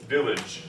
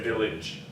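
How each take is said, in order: First: The second syllable has a reduced schwa vowel. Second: The second syllable has a full, unreduced vowel. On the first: The speaker calls it right. "I would use the schwa" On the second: The speaker calls it wrong. "because I don't say village"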